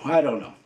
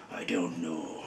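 First: Said in the usual way. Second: Low, hushed villain voice; deep, dark voice. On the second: Shown as a demonstration. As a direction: sink the voice low and soft. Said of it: "his voice would be deeper and darker".

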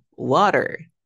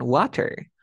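First: "water" with the T flapped like a Spanish R. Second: "water" with the T fully sounded; non-native T. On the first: Teacher modelling native "water", T turned to a tapped R. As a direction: say "water" slowly, tapping the T into an R. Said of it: "Lo pronuncio como si fuese una R". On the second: Teacher citing the "water" learners should drop, hard T. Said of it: "Ya no me digan water". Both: Shown as a demonstration.

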